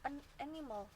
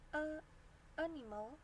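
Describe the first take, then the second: First: An n sound links the two words. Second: Two vowels meet with no n sound between. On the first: The speaker calls it right. "Yang ini salah, yang ini benar" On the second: The speaker calls it wrong. "kan susah"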